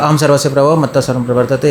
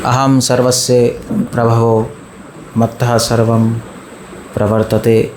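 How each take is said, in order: First: The words are rushed together mechanically. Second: Each word is given deliberate, careful attention. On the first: The reciter memorized it without understanding. The speaker calls it wrong. "जिसने रट्टा मारा होता है वो वो पता है कैसे बोलता है" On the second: The reciter understands the meaning of each word. The speaker calls it right. "हर शब्द पे ध्यान देके बोलेगा"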